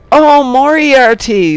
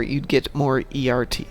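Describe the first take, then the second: First: Loud, higher burst of getting the joke; sudden realization. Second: Said in the usual way. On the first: Real, not acted. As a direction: shout it as the pun finally clicks. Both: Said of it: "Saying it out loud worked".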